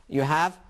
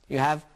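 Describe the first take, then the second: The two takes are said the same way.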